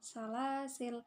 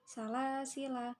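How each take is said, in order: First: The word ends on a consonant, no vowel. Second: The final vowel is short. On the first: The reader pauses on this word. "atau dibaca dengan sukun" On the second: The reading continues without a pause. "Ketika wasol dibaca pendek"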